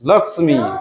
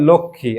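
First: The m sound is clearly pronounced. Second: The m sound is left out. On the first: "হিন্দির মতো করে যেন উচ্চারণ করিস" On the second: "আমরা বাংলায় বলি লক্ষ্মী, আর মটা আর বলি না"

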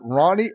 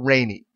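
First: The first vowel sounds like 'Ron'. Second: The first vowel sounds like 'rain'. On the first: The speaker calls it right. "it's Ronnie" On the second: The speaker calls it wrong. "I kept calling him Rainy"

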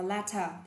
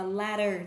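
First: The t is a crisp British t sound. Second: The t is a soft American flapped sound. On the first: "Một đọc là latter, theo anh" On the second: "Hoặc là latter, theo anh Mỹ"

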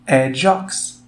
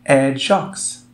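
No difference in how they are said.

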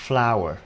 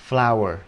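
Both takes have the same delivery.

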